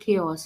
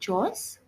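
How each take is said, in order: First: The word is said as two syllables, kay-os. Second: The word is said as one syllable, like chores. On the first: The speaker calls it right. "it's called chaos" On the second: The speaker calls it wrong. "not chores"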